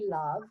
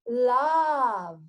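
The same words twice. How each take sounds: First: The vowel is a short, closed sound. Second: The vowel is an open 'ah' sound. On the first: The speaker calls it wrong. "doesn't say love" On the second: The speaker calls it right. "we should actually pronounce it love"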